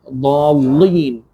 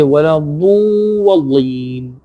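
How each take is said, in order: First: ضالين said with an exaggerated heavy ḍ; overstressed ضالين. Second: ولا الضالين with a clean, unexaggerated ḍ; clear ولا الضالين. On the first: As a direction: push the ḍ of ضالين too hard. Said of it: "an extra accentuation is there". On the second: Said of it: "but it is a mistake". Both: Shown as a demonstration.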